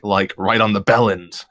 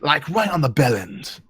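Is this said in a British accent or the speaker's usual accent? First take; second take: usual; British. First: It is said in the speaker's usual accent. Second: It is said in a put-on British accent.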